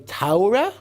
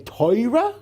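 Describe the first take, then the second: First: It is said with German Ashkenazi pronunciation. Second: It is said with Polish Ashkenazi pronunciation. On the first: "which is the German pronunciation" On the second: "which is the Polish pronunciation"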